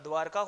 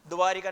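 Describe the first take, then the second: First: No 'i' vowel follows the 'r' sound. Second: An extra 'i' vowel follows the 'r' sound. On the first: The speaker calls it right. "द्वारका होता है" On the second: The speaker calls it wrong. "द्वारिका नहीं होता"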